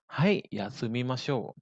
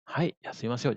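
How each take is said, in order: First: Slow, drawn-out teaching delivery; slow model answer. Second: Said in the usual way. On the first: Shown as a demonstration. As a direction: say it slowly for learners to follow. Teacher models answer slowly first. (contoh jawaban diucapkan pelan)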